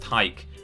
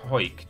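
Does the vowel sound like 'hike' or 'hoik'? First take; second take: hike; hoik. First: The vowel sounds like the one in 'hike'. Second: The vowel sounds like the one in 'hoist'. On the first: The speaker calls it right. "it's pronounced hike" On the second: The speaker calls it wrong. "I think I tried hoik just then"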